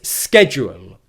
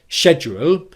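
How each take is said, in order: First: It begins with an sk sound. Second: It begins with an sh sound.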